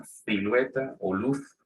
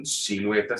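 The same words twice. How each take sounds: First: "silueta" and "luz" with lisped th, thilueta, luth; s and z both as th; Andalusian ceceo. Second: Said in the usual way. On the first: Shown as a demonstration. Teacher contrasts Latin American and Andalusian sounds. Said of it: "sino que dicen silueta o luz". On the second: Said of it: "no dicen silueta".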